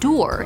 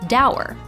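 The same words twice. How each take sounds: First: The word rhymes with endure. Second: The word rhymes with sour. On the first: This is the traditional pronunciation. "traditionally pronounced dour, as in endure" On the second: This is the newer, spreading pronunciation. "since it kinda means sour, it's slowly becoming dour"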